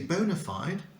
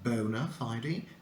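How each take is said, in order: First: It is said with an American pronunciation. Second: It is said with a British pronunciation. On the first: "in American English, you say bona fide" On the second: "I prefer the British pronunciation"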